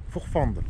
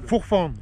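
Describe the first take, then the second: First: Said in the usual way. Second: Fourfande said with a clear final d; corrected name. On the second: Shown as a demonstration. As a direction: repeat Fourfande, stressing the ending d. (Fourfande avec le d final bien prononcé)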